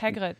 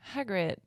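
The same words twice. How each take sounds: First: The name is said in a German accent. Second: The name is said in a plain English accent.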